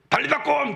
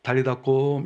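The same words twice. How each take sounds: First: High, sudden shouted call; a yell that startles a child; startling shout. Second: Gentle and loving. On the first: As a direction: jolt them awake with a yell. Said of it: "그건 소리 지르는 거지". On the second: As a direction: coax a sleeping child gently. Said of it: "조용히 가서 사랑하는 마음으로". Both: Shown as a demonstration.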